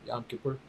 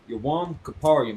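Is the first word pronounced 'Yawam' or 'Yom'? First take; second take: Yom; Yawam. First: It is said as Yom Kippur, with fewer syllables. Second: It is said as Yawam Kaparium, with more syllables. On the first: This is how others say it today. The speaker calls it wrong. "They would pronounce it Yom Kippur" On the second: This is the original Hebrew form. The speaker calls it right. "That's where they get"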